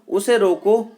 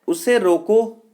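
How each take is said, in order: Both takes have the same delivery.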